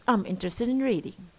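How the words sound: The voice falls at the end.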